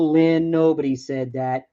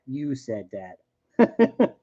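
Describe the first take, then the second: First: Said in the usual way. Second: YOU stretched slow and pointed; stress on YOU. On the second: Acted. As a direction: land hard on the word You. Accusing chat viewer, slow and pointed.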